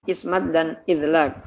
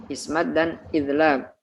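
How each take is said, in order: Both takes have the same delivery.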